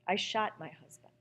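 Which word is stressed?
shot. The stress falls on the word shot.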